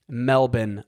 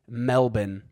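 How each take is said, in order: First: It is said with an Australian pronunciation. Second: It is said with an Australian pronunciation.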